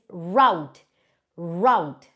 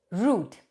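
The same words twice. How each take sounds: First: Route said "rowt", rhyming with out, stressed; correct pronunciation of route. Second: Route said as "root", rhyming with boot; Indian pronunciation of route. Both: Shown as a demonstration. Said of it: "The correct pronunciation is not route".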